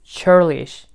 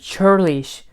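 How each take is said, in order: First: The word begins with a ch sound. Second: The same.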